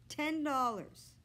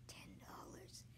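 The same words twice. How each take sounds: First: Slow, drawn-out disbelief at the sum; stunned repeat. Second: Breathless whisper of the sum; awed whisper. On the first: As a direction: say it like the price just hit him. Joe repeating the price, stunned. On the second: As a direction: whisper it like a secret fortune. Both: A narrator's reading.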